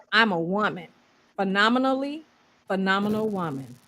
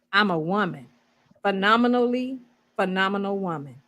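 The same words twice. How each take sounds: The two takes are said the same way.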